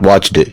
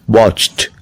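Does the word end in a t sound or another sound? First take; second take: other; t. First: The ending is not a plain t sound. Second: The ending is a plain t sound. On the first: The speaker calls it wrong. "Not watched" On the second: The speaker calls it right. "T sound"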